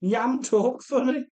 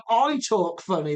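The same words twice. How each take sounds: First: "Yam talk funny" in a Wolverhampton accent, higher and rising on "funny". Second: Said in the usual way. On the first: Shown as a demonstration. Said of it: "thick Wolverhampton accent". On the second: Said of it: "And I was like".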